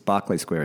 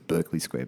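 First: The first syllable sounds like 'bark'. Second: The first syllable sounds like 'burk'. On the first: The speaker calls it right. "but it's Barclay Square in Mayfair" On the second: The speaker calls it wrong. "I used to think it was Berkeley Square"

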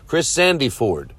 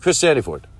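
First: The name is said slowly. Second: The name is said quickly.

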